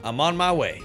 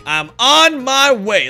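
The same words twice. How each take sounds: First: Said in the usual way. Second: Louder, slow heroic announcement; drawn-out hero call. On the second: Acted. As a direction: announce it like a rescuer.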